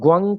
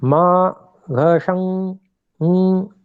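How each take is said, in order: First: The sound is a hard 'gvang' syllable. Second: The sound is a long hum through the nose. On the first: The speaker calls it wrong. "कई लोग इसको ग्वंग करके उच्चारण करते हैं, वो उच्चारण अशुद्ध है" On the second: The speaker calls it right. "इसका नासिका से उच्चारण होता है"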